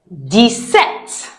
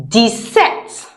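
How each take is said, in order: The two takes are said the same way.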